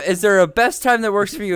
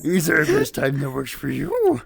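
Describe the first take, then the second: First: It is said in the speaker's normal voice. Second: It is said in a put-on Yoda voice.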